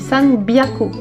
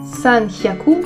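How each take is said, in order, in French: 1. Le deuxième mot commence par un son b. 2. Le deuxième mot commence par un son h. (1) "mais san byaku" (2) "ça ne se dit pas san hyaku"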